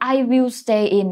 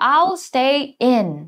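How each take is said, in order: First: Both words 'I' and 'will' are said separately. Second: 'I' and 'will' are merged into one syllable.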